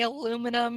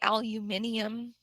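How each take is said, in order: First: It is said with an American accent. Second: It is said with a British accent. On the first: "here we say aluminum" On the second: "there they say aluminium"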